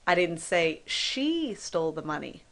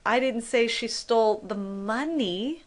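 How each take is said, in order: First: The stress is on "she". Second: The stress is on "money".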